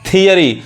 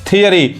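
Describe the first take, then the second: First: The word begins with a 'thee' sound. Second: The word begins with a 'thee' sound.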